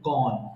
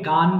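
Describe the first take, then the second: First: The vowel is a rounded 'aw' sound. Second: The vowel is an open 'ah' sound. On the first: The speaker calls it right. "সঠিক উচ্চারণ হবে গন" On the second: The speaker calls it wrong. "এখানে আমরা অনেকে গান বলে ফেলি, গান হবে না"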